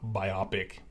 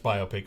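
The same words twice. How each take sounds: First: It is split as bi plus opic. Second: It is split as bio plus pic. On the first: The speaker calls it wrong. "not biopic" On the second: The speaker calls it right. "it's biopic, because it's biographical picture"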